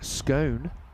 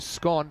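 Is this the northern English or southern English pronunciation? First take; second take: southern English; northern English. First: It uses the southern English pronunciation. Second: It uses the northern English pronunciation. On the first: "common in southern England, the U S" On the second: "how I say it and you say it, it's common in northern England, Scotland"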